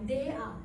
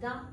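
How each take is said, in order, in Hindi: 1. दोनों अक्षर अलग-अलग अक्षरों की तरह बोले जाते हैं। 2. यह शब्द एक छोटे अक्षर में बोला जाता है। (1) "अगर डी को दे कहते तो मुझे बोलना चाहिए था दे और ए को आ" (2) "मैंने साउंड लिखी शॉर्ट साउंड्स"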